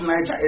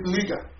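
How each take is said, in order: First: Niger said as "NY-ja", with a j; rejected pronunciation. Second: Niger said as "NEE-ga", with a hard g; corrected pronunciation. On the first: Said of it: "Not Niger anymore". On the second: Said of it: "It's Niger". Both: Shown as a demonstration.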